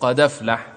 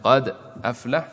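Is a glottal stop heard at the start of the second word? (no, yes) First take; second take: no; yes. First: The words run together without a glottal stop. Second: A glottal stop separates the two words. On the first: "نقلت حركة الهمزة إلى الساكن قبلها وحذفت الهمزة" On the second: "بدل"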